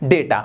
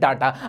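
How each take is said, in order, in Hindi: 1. पहला स्वर 'ay' जैसा बोला जाता है। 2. पहला स्वर 'ah' जैसा बोला जाता है। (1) "जैसे एक वर्ड होता है डेटा" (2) "डेटा को हिंदी में इस्तेमाल किया जाता है डाटा"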